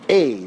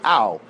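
First: The vowel is said like an 'ei' sound. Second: The vowel is said as 'au'. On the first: "much more like a tsere type sound" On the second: "They don't say o, they say au"

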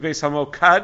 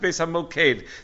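First: The last syllable has an 'ah' vowel. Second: The last syllable has an 'eh' vowel. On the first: The speaker calls it wrong. "I kept on mispronouncing it as Beis Hamokad" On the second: The speaker calls it right. "It's Beis Hamoked"

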